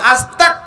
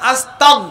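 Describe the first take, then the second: First: The word ends with a hard k sound. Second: The word ends with a throaty gh sound. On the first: It asks God for disbelief. The speaker calls it wrong. "অনেকে কয় আস্তাক। যদি কাপ দিয়ে করেন" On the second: It asks God for forgiveness. The speaker calls it right. "এখানে গইন দিয়ে"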